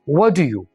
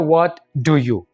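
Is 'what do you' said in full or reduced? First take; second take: reduced; full. First: The words are shortened and run together. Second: Each word is said fully and separately. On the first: "अंग्रेज इसको बोलता है short करके" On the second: "simple English में"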